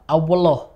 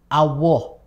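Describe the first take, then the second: First: The l is mixed with a w sound. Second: The l is replaced by a pure w sound. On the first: "tercampur antara wawu dan lam" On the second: "menjadi wawu murni"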